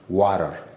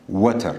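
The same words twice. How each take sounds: First: The middle consonant sounds like a D. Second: The middle consonant is a clear T sound. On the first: The speaker calls it right. "We have to read it like water" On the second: The speaker calls it wrong. "some of us we read this as water, but it is wrong"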